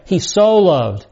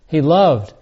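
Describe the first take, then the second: First: So drawn out and slowed for emphasis; stress on so. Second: Said in the usual way. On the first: Shown as a demonstration. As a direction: lean hard into the word so, slowly. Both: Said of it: "It's emphatic".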